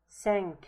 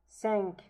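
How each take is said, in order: No difference in how they are said.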